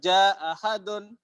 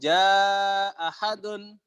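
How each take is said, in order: First: The vowel of 'ja' is held for two counts. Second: The vowel of 'ja' is held for four counts. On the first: "Ja hanya dengan dua harokat" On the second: "Bisa juga dengan"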